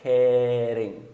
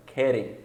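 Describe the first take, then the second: First: Querem stretched on its first vowel before the tap; slowed tapped R. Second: Said in the usual way. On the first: Shown as a demonstration. Teacher slows kidding down, querem long with a tapped R. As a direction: draw out querem and flick the R. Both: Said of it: "como o som do R brasileiro".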